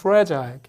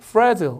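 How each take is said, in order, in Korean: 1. 영국식 발음으로 되어 있습니다. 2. 미국식 발음으로 되어 있습니다. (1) "영국 가면 fragile I 발음이 나요" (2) "이게 fragile 이렇게 된다면 미국식이죠"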